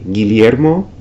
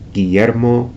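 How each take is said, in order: First: The ll sounds like lli in million. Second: The ll sounds like y in yes. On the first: This is how it is said in a few isolated regions. "similar to the double L I sequence in words like million" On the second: This is how it is said in most regions. "it's pronounced like the Y in yes"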